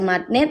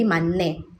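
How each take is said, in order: First: A t sound is heard before the ending. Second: An n sound is heard before the ending. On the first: The speaker calls it wrong. "ada yang baca matne" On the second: The speaker calls it right. "coba lafalin menjadi mane"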